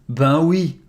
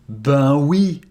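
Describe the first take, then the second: The two takes are said the same way.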